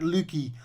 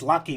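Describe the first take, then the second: First: It is said with a Dutch pronunciation. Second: It is said with an English pronunciation. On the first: The speaker calls it wrong. "not Lucky" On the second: The speaker calls it right. "It's, it's Lucky"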